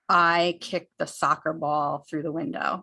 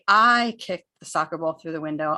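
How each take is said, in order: First: No word gets special stress. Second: The word I is stressed and louder.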